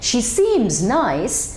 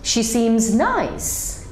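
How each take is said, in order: First: The stress falls before the word nice. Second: The stress falls on the word nice. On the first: "when we are stressing on the first sentence" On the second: "we are stressing on nice"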